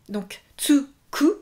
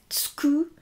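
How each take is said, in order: First: Tsuku spelt out slowly, syllable by syllable, ts-u-ku. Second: Tsuku with the u of tsu almost silent, said as tsku. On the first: Teacher slowly spells out tsuku for learners. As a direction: draw out tsuku slowly so each syllable is heard. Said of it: "je vous le prononce". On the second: Teacher shows the nearly silent u in Tsuku. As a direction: clip Tsuku so the first u nearly vanishes. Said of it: "le ou du tsu est quasiment muet". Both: Shown as a demonstration.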